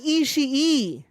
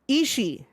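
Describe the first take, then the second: First: The final extra i sound is pronounced. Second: The final extra i sound is dropped. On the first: The speaker calls it wrong. "it is not Ishii. You do not pronounce that second I" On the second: The speaker calls it right. "It's just Ishii"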